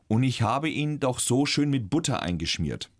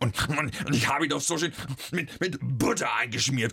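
First: It is spoken in plain standard German. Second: It is spoken in a Franconian character voice. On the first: "Der Satz ist im Hochdeutsch" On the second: "Wenn du den in dieser Eber-Speckschwarte-Ton sagst"

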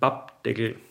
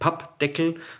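First: The consonants are soft and lax. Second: The consonants are hard and tense. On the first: The speaker calls it right. "harten Konsonanten wie jetzt P oder T prinzipiell ganz weich sprichst" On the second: The speaker calls it wrong. "also nicht Pappdeckel"

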